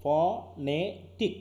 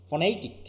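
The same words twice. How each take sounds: First: Very slow phonetic, each syllable pulled apart; drawn out syllable by syllable. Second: Said in the usual way. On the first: Shown as a demonstration. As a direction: stretch out phonetic slowly, one syllable at a time. (ধীরে ধীরে syllable আলাদা করে phonetic) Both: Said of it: "কিন্তু আসলে কি?".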